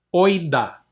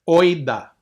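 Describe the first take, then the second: No difference in how they are said.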